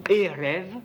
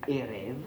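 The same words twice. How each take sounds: First: Said in the usual way. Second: "et rêve" repeated much more softly and lower; softer echo. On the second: Shown as a demonstration. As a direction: let "et rêve" fade into a quiet echo. ("et rêve" répété tout bas, plus grave) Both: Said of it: "Ça, c'est le soir".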